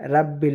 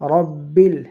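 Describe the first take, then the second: First: The r sound is light and thin. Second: The r sound is heavy and thick. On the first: The speaker calls it wrong. "রাব্বিল নয়" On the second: The speaker calls it right. "রব একটু মোটা করে পড়তে হবে"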